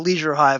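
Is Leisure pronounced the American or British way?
American. Leisure is pronounced the American way. "In my head, it is only ever the Leisure Hive"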